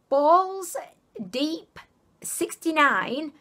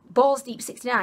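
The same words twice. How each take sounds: First: The words are separated by short pauses. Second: The words are run together quickly. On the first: It sounds less suggestive. The speaker calls it right. "I kind of said it like I split the words up" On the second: It sounds suggestive. The speaker calls it wrong. "it wasn't like"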